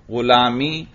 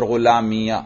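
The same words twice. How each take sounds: First: غلامی ending on a long "ee"; silent final ya. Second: غلامیہ ending in "-iya"; fatha on final ya. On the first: Teacher showing the first allowed reading, silent ya. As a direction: say غلامی with no vowel after the ya. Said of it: "یا کو ساکن پڑھنا بھی صحیح". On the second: Teacher showing the second allowed reading, fatha on ya. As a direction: sound an "a" after the ya of غلامیہ. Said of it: "یا پر فتحہ پڑھنا بھی صحیح". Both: Shown as a demonstration.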